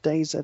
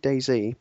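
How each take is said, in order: First: The final letter is said as 'zed'. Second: The final letter is said as 'zee'. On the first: "it's pronounced DayZ" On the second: "the Americans can say DayZ because that's how they pronounce Z"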